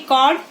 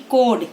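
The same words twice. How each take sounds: First: कॉर्ड said as "cod", short open vowel; short O sound. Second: कोड with a long, round "oh"; long O sound. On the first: Teacher showing children the short sound, short O in कॉर्ड. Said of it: "short sound". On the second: Teacher showing children the long sound, long O in कोड. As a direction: say कोड as "kohd", vowel held long. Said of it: "long sound". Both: Shown as a demonstration.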